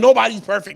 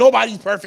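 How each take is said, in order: First: It sounds alarmed and accusing, blowing things up. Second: The same.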